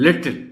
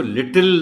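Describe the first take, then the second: First: لٹل with the T running straight into the L; لٹل with no full vowel before final L; model pronunciation. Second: لٹل with a full vowel before the final L; لٹل in two full syllables, "lit-til"; mispronounced little. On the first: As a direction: model لٹل higher and louder, as "lit-l". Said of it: "بچوں کو آپ نے خاص طور پر advise". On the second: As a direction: show لٹل as learners wrongly say it, "lit-til". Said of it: "اس کو لٹل نہیں بولنا". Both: Shown as a demonstration.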